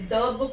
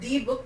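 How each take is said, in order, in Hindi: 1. 'the' का स्वर एक छोटा 'uh' है। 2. 'the' का स्वर एक लंबा 'ee' है। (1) "we say the book" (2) "not the book"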